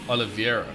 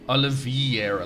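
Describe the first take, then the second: First: The middle vowels are read as e then i. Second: The middle vowels are read as i then e. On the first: The speaker calls it right. "So it's Oliveira. There we go" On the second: The speaker calls it wrong. "I read it as Oliveira, like I E, not E I"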